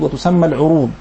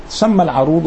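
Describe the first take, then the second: First: العروض said al-'urood, short "u" after the ayn; rounded first vowel in العروض, "'u-rood"; variant with damma. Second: العروض said al-'arood, short "a" after the ayn; variant with fatha. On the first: (العروض بضم العين) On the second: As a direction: open first vowel in العروض, "'a-rood". (العروض بفتح العين) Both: Shown as a demonstration. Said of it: "تسمى العروض وتسمى العروض".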